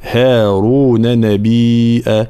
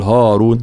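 First: Slow recitation, thin fronted "hae" in هارون; هارون lengthened with a light h and a. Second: هارون with a thick, backed "haa"; هارون said heavy as "haw-roon"; wrong heavy ha. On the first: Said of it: "ترقيق الهاء". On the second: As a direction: show the mistake: dark a after the h in هارون. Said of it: "لا نقول هارون". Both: Shown as a demonstration.

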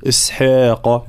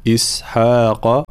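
First: إسحاق with the ح overly thin. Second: Slow إسحاق with a moderately thin ح; correct ha. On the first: Teacher shows the over-thinned إسحاق. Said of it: "ولا نبالغ في الترقيق". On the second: Teacher models the correct إسحاق. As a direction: say إسحاق slowly, balanced ح. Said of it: "لا، إسحاق". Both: Shown as a demonstration.

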